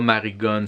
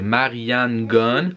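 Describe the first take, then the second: First: The name is said as Marigon. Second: The name is said as Marianne Gunn. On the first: The speaker calls it wrong. "c'est pas Marigon" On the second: The speaker calls it right. "c'est Marianne Gunn"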